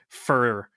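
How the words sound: The vowel is a reduced 'ur' sound. "weird Ohio accent thing ... I say fur"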